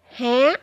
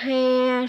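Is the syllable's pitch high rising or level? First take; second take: high rising; level. First: The syllable is said with a high rising pitch. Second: The syllable is said on a level pitch.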